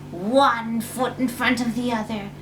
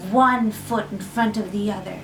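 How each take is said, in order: Both takes have the same delivery.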